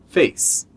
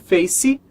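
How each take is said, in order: First: The word ends cleanly on the s sound. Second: An extra vowel sound follows the final s. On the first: The speaker calls it right. "e sim face" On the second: The speaker calls it wrong. "não é face"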